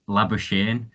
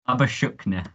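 First: The name is pronounced in an English way. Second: The name is pronounced in a South African way. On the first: "The English pronunciation is Labuschagne" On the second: "he's originally born in South Africa and he pronounces it Labuschagne"

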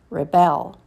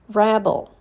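First: The stress is on the second syllable. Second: The stress is on the first syllable. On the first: It is a verb. "and then the verb" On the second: It is a noun. "First, you hear the noun"

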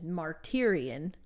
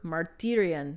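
First: It is said with an American pronunciation. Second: It is said with a Greek pronunciation. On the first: "in my American pronunciation" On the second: "I want to say in Greek it's like"

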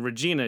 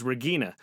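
First: The G is soft, like a J sound. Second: The G is hard, like in go. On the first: "instead of her being Regina" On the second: "Because they don't have a soft G"

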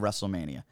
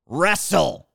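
First: It is said as one smooth word. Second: The two parts are said separately.

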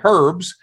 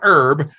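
First: The word begins with an audible H. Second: The word begins without an H sound.

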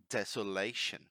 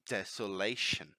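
Both takes have the same delivery.

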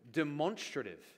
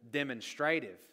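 First: It is said the way a Californian professor did. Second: It is said the Australian way. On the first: "the professor said the word demonstrative" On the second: "In Australia, and I think here in New Zealand, we pronounce it demonstrative"

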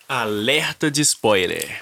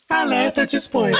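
First: It is said in a normal voice. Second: It is said in a robot voice.

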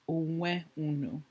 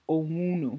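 First: Both words are said fully and separately. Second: The words merge into one shortened word. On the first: "so we add onwe in front" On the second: "when a, you know, comfortable speaker says it, it's more like"

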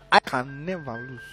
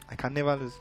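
First: It is said forcefully, as a declaration. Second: It is said weakly and timidly.

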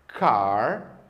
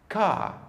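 First: The final R sound is clearly pronounced. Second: The final R sound is left silent. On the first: This is the American pronunciation. "No inglês norte-americano, a letra R no final das palavras sempre é pronunciada" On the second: This is the British pronunciation. "no inglês britânico, a letra R do final das palavras nunca é pronunciada"

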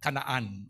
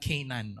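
First: The name is said in its original pronunciation. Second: The name is said in the American pronunciation. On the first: "yun ang tunay ng pronunciation" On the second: "Yung mga Amerikano lang mahilig ng Canaan"

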